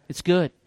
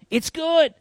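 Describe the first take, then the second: First: Said in the usual way. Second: "It's good." said much higher and pushed up; "It's good." repeated high and bright with emphasis; raised, emphatic. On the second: Shown as a demonstration. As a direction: lift "It's good." way up in pitch.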